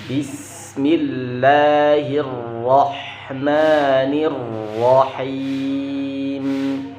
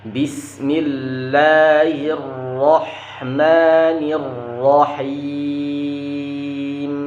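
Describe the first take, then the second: No difference in how they are said.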